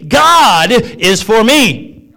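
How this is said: The stress falls on the word God.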